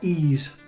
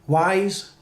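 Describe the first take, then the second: First: The name is said with an 'ee' sound, no 'w'. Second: The name is said with a 'w' and 'eye' sound. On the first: "there's two ways of saying it" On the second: "there's two ways of saying it"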